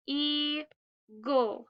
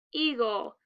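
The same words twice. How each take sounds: First: "eagle" pulled apart as ee, then gul; split into syllables. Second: Said in the usual way. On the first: Shown as a demonstration. Teacher showing the vowel team, word split in two. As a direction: stretch "eagle" into two slow beats with a gap. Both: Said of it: "E A says e".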